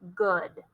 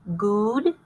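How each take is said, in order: First: The vowel is a short uh sound. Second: The vowel is a long oo sound. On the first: The speaker calls it right. "Try it with the uh sound" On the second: The speaker calls it wrong. "Try it with the oo sound"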